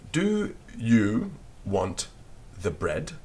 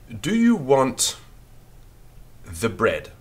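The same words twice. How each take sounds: First: Very slow dictation. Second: Slow, louder dictation of Do you want the bread. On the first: Teacher repeating the sentence for pupils to copy, very slowly. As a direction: Do you want the bread drawn out very slowly. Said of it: "we wouldn't actually say it quite like that". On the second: Teacher dictating a sentence to pupils, slow and clear. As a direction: dictate it slowly to the class. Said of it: "we write this". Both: Shown as a demonstration.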